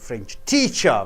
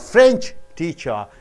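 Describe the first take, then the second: First: The stress falls on the second word. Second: The stress falls on the first word. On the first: The teacher is from France. "when teacher is stressed and French is less stressed" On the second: The person teaches French. "when French is stressed more"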